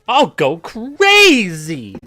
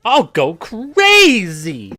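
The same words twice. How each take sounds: First: It is said in a manic, super jolly voice. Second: The same.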